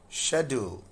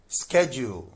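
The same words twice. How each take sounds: First: It is said with a British English pronunciation. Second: It is said with an American English pronunciation. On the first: "But in U K, it is schedule" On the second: "In U S English, this is schedule"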